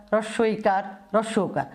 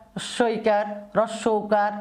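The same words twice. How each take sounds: The two takes are said the same way.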